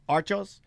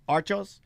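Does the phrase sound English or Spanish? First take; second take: Spanish; Spanish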